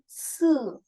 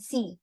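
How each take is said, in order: First: It ends in an 'e' vowel. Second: It ends in an 'ee' vowel. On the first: The speaker calls it right. "tapi se" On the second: The speaker calls it wrong. "Ini kita baca bukan si"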